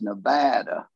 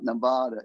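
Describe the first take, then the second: First: The name is pronounced the way locals say it. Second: The name is pronounced the way outsiders say it. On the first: This is how people from there say it. The speaker calls it right. "it's Nevada" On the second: This marks the speaker as not from there. The speaker calls it wrong. "Nevada is not Nevada"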